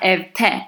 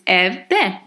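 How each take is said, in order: First: The suffix begins with a t sound. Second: The suffix begins with a d sound. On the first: The speaker calls it wrong. "It's not" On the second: The speaker calls it right. "there is no change there"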